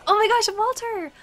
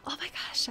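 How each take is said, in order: First: Loud, high, excited exclamation; excited outburst, pitched way up; raised voice. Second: Hushed, whispery exclamation; reined-in excitement, said softly; not raising voice. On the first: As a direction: cry out in delighted surprise. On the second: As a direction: pull it back to a soft whisper. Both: Real, not acted. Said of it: "I can't raise my voice".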